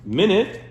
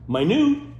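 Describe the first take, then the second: First: It is pronounced as the unit of time. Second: It is pronounced as the word for tiny. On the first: It means sixty seconds. "Minute is a measure of time" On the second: It means very small. "Minute is really small"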